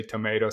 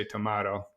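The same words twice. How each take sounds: First: TOMATO with a long "may" in the middle; American pronunciation. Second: TOMATO with an open "mah" in the middle; other pronunciation. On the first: Guest quoting the old saying, tomato as tuh-MAY-toh. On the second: Guest quoting the old saying, tomato as tuh-MAH-toh. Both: Shown as a demonstration. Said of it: "some people say tomato".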